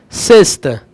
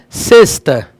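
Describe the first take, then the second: No difference in how they are said.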